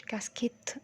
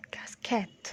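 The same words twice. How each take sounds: First: كاسكيت said wrongly with an i, kas-kit, whispered; wrong pronunciation shown. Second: كاسكيت said with an open a, kas-kat, whispered; correct pronunciation. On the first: Teacher showing the wrong كاسكيت. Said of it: "مش كاسكيت". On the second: Teacher modelling the right كاسكيت. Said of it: "مع فتح شوية". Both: Shown as a demonstration.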